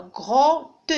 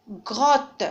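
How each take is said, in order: First: "grotte" slowly broken into gro-te; slow two-syllable "grotte", gro, then te; split into syllables. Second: Said in the usual way. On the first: Shown as a demonstration. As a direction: say "grotte" in two separate beats, sounding the final e. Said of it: "je vais les découper". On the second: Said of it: "Je vais les prononcer".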